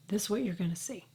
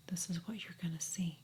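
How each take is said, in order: First: Said in the usual way. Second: Whispered, softer, like a secret; hushed whisper. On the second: Real, not acted. Vlogger showing viewers her skin close up, whispering. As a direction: lean in and breathe it.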